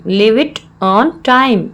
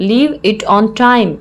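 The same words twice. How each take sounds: First: Slow, word-by-word teaching delivery; slow repeat. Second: Said in the usual way. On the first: Shown as a demonstration. Teacher repeats the English phrase for learners, slowly.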